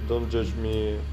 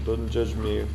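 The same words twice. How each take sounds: The two takes are said the same way.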